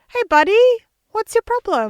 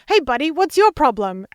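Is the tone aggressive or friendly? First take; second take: friendly; aggressive. First: It sounds friendly and lovely. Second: It sounds aggressive and confrontational.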